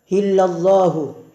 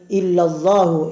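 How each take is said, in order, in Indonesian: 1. Kata ini diawali dengan bunyi h yang berhembus. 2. Kata ini langsung diawali dengan vokal. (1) "Di sini hu dibaca hu karena pengaruh tekanan nafas" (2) "yang asalnya berbunyi"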